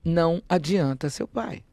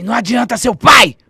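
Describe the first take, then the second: First: Slowly repeating the threat to herself; slow echo. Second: A raised, snarling threat from a dead face; higher, much louder ghost threat; menacing ghost voice. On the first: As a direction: let the words sink in, slow and plain. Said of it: "porque eu entendi o recado". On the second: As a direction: hurl it at the child like a spirit. Ghostly creature threatens the child. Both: Retold or imitated.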